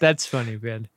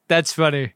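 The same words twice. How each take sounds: First: Lower, dry "That's funny"; deadpan. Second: Flat unamused "that's funny"; deadpan. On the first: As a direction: say "That's funny" without a trace of laughter. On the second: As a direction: say it like it isn't funny at all. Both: Acted. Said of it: "don't laugh and say".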